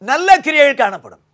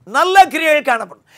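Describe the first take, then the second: No difference in how they are said.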